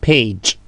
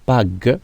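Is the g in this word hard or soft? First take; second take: soft; hard. First: The g is pronounced as a soft j sound. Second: The g is pronounced as a hard g sound. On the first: The speaker calls it right. "mais nous allons dire page" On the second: The speaker calls it wrong. "nous n'allons pas dire"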